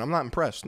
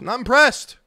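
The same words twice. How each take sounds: First: Said in the usual way. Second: Louder, higher emphatic repeat; emphatic verdict. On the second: Acted. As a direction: punch it out, pitch jumping up on "impressed".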